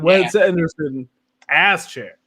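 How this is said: The word ass is strongly emphasized.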